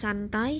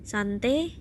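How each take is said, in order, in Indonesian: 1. Kata santai berakhir dengan diftong ai. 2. Kata santai berakhir dengan vokal e tunggal.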